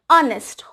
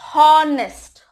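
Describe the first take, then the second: First: The word begins with a vowel, H silent. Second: The word begins with an audible H sound. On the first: The speaker calls it right. "Because H is silent" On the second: The speaker calls it wrong. "H is more audible over there, so they pronounce this word as honest. It is wrong"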